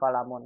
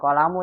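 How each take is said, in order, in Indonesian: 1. Kata ini berakhir dengan bunyi n. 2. Kata ini berakhir dengan vokal, tanpa n. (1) "tapi kolamun. Kan tidak ada alif lamnya" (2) "Bukan kolamu Ibu"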